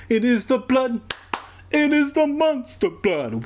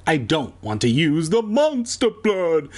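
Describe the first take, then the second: First: Much higher, swooping on "the monster blood"; dramatic mock horror. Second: Said in the usual way. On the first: Shown as a demonstration. Reader repeating the phrase for effect, high mock-horror squeal. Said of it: "repeated with huge pitch rise". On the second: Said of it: "plain then dramatic repeat".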